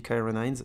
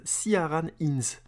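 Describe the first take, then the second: First: Said in the usual way. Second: «Ciaran Hinds» dit lentement, à la française, syllabe par syllabe. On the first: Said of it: "Moi je dis Kyron Hines". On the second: Shown as a demonstration. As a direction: prononcer «Ciaran Hinds» très lentement comme un nom français. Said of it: "alors je vais le dire à la française". (nom anglais prononcé à la française, très lentement)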